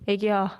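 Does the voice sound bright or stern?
stern. The voice sounds flat and stern. The speaker calls it wrong. "왜 이렇게 애기한테 어 무섭게 말하냐"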